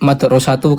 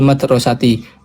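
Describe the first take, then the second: First: The word ends with a 'u' vowel. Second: The word ends with an 'i' vowel. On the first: The speaker calls it wrong. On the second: The speaker calls it right.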